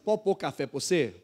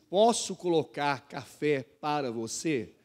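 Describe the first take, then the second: First: It is said in a clipped Mineiro way. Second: It is said fully, without Mineiro clipping.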